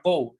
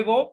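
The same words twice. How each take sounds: First: "go" with a gliding vowel, GOH-oo; English "go", the o sliding into a w; correct English pronunciation. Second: "go" with a pure Spanish o; "go" read the Spanish way, plain "o" vowel; spelling pronunciation. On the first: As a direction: say "go" the English way, like "gou". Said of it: "pero se pronuncia go". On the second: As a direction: say "go" as written, short GO with no glide. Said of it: "Se escribe go". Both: Shown as a demonstration.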